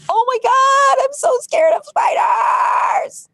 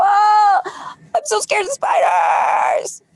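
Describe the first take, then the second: First: Mock scared wail. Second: Mock scared cry. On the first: Coach acting out spider panic for viewers, high mock scared wail. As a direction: wail it like a terrified child, half joking. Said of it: "recognizing that you have a fear of spiders and say". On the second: Coach repeating spider fear for viewers, high mock cry. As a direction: cry it out in play, a bit less wild. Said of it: "the next time the spider triggers, you go".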